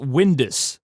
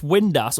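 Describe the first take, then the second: First: The last syllable sounds like 'us'. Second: The last syllable sounds like 'ass'. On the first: The speaker calls it wrong. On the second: The speaker calls it right.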